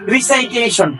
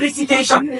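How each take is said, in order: First: The second syllable sounds like 'sai'. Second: The second syllable sounds like 'si'. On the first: The speaker calls it wrong. "কিন্তু আমরা সবাই মোটামুটি বলি যে রিসাইটেশন" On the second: The speaker calls it right. "শুদ্ধ উচ্চারণ রিসিটেশন"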